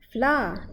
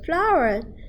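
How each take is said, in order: First: The word is said in a British accent. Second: The word is said in an American accent. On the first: "kita bahasa British we say flour" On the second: "Tapi kalau Amerika dia sebut flour"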